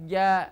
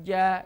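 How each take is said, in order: Both takes have the same delivery.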